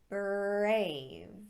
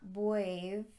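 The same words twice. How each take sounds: First: The R is said as a clear R. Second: The R is said like a W. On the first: The speaker calls it right. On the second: The speaker calls it wrong.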